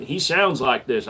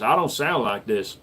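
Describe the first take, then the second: First: Slow country-accent impression; imitated country accent. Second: Said in the usual way. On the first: Showing viewers how a YouTube comic talks, slow country accent.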